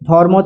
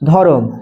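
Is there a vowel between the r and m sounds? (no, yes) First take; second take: no; yes. First: The r and m are joined in a cluster. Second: A vowel is inserted between r and m. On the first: This is the written standard form. "ধর্ম থেকে ধরম" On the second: This is the easier everyday pronunciation. "আমরা ওটা উচ্চারণ নিজেদের উচ্চারণের জন্য কি বলি ধরম"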